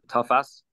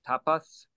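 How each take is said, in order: First: The middle consonant is an f sound. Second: The middle consonant is a p sound. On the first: The speaker calls it right. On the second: The speaker calls it wrong.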